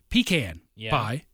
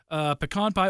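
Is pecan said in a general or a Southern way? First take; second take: Southern; general. First: Pecan is said in a Southern, Georgia way. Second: Pecan is said in a general American way. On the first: The speaker calls it right. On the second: The speaker calls it wrong.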